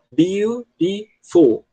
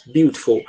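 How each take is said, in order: First: Slow, higher, syllable by syllable: beau-ti-ful; counting syllables. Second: Said in the usual way. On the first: Shown as a demonstration. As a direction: spell out "Beautiful" beat by beat, slowly and higher. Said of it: "se você contar as sílabas". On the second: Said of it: "A gente tem três sílabas".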